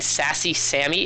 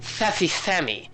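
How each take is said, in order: First: The s sounds are crisp hissing s sounds. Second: The s sounds are lisped like th sounds. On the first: "We say an s like this" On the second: "It's like it's like using like the th sound"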